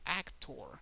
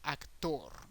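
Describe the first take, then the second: First: The stress is on the first syllable. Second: The stress is on the last syllable. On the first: "in English is actor. The emphasis is more in the first syllable" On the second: "in Spanish, the emphasis is in the last syllable"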